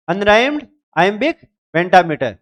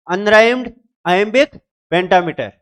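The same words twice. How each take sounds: The two takes are said the same way.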